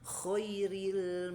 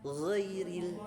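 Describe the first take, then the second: First: The word begins with a harsh voiceless kh sound. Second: The word begins with a voiced gargled gh sound. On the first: The speaker calls it wrong. "khairil maghdubi harusnya kan ghairil" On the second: The speaker calls it right. "harusnya kan ghairil"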